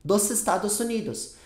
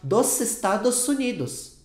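First: The s sounds before vowels stay voiceless like s. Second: The same.

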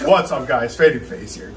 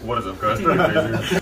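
First: It is said in his normal voice. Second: It is said in a put-on deep voice.

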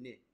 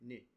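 First: The word ends with a high 'i' vowel. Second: The same.

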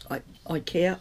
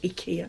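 First: The name is said the everyday English way. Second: The name is said the company's own way. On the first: This is how the speaker usually says the name. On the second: This is how the company says its own name.

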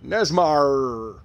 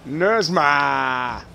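First: It is said in a plain, general accent. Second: It is said in a local Boston accent.

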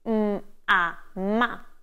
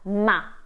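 First: The sounds are said separately before the syllable. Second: The syllable is said at once as one unit. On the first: The speaker calls it wrong. "children are not trained to say m-a-ma" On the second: The speaker calls it right. "but ma, straight away"

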